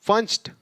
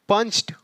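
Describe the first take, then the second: The two takes are said the same way.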